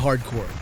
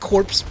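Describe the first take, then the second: First: The word ends in a plain 'core' sound. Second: The word ends with an added 'ps' sound. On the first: The speaker calls it right. "that's how you pronounce this" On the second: The speaker calls it wrong. "it's not corpse"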